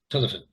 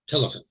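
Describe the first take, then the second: First: The last vowel is a weak schwa. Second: The same.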